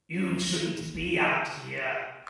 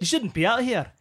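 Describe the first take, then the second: First: A grizzled voice with no particular accent. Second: A grizzled voice in an Aussie-Glaswegian accent.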